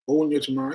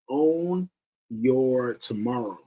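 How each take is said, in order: First: It is said casually, without weight or emphasis. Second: It is said slowly and firmly, with strong emphasis. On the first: The words are heard but not taken seriously. "You're not paying attention to. Just own your tomorrow. Yeah, whatever" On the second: The statement is truly understood and felt. "But once you really get it"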